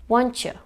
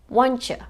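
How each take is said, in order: The two takes are said the same way.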